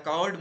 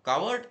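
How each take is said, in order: First: Loud, raised echo; echoed insult. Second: High, loud insult; angry boy's shout. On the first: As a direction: bounce the shouted word back. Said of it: "तिकडून पुन्हा आवाज आला". (परत आलेली मोठी आरोळी) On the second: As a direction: shout the one word in anger. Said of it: "त्या मुलाला आता राग आला". (रागाने चढ्या आवाजात) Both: A narrator's reading.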